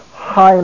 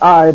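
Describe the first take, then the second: First: The syllable starts with an h sound. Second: The syllable starts with no h sound. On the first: The speaker calls it right. "but high ma tone" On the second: The speaker calls it wrong. "not I"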